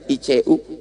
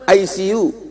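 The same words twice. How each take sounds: First: The letters are read with Indonesian letter names. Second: The letters sound like English words 'I see you'. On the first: It is just the name of the hospital ward. The speaker calls it wrong. "Ustaz salah kali bacanya" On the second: It says 'I see you' to the patient. The speaker calls it right. "Bukan gitu cara bacanya Pak Ustaz"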